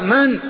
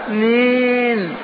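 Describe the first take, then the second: First: The word is said in a firm, curt voice. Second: The word is said in a soft, gentle voice. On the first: The speaker gives the stranger no encouragement. The speaker calls it right. "ما تطمعه بكلمة لينة" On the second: The speaker sounds inviting toward the stranger. The speaker calls it wrong. "لا ترققن العبارة لينها"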